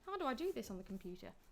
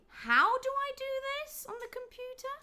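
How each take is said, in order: First: The pitch stays ordinary without a held high rise. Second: The pitch rises on 'how' and stays high. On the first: The speaker is asking for the information for the first time. "you wouldn't have that that high rising intonation" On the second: The speaker is asking again for something already told. "the tone rises on on on how, and it stays on how"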